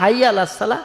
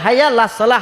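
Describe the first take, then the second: First: The throat sound and vowel before 'las' are dropped. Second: The same.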